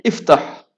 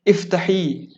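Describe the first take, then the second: First: "Iftah" loud and short with a firm stop; slightly hard command. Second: "Iftahi" higher, ending on a long open "ee"; slightly softer command. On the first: Teacher shows ordering a man, firm hard command. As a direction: order "Iftah" a bit hard, ending abruptly. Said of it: "dia bunyi keras sikit". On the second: Teacher shows ordering a woman, gentler drawn-out command. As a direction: ease "Iftahi" out with a lengthened final vowel. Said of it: "Lembut sikit". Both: Shown as a demonstration.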